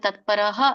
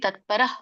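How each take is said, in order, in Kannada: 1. ಕೊನೆಯ ಭಾಗ ಪೂರ್ಣ, ಸ್ಪಷ್ಟ 'ಹ' ಅಕ್ಷರ. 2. ಕೊನೆಯಲ್ಲಿ ಕೇವಲ ಹಗುರ ಉಸಿರು ಇದೆ. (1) "ನೀವು ತತ್ಪರಹ ಅನ್ಬೇಡಿ" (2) "ಸ್ವಲ್ಪ ವಿಸರ್ಗ ಇಡ್ಬೇಕು"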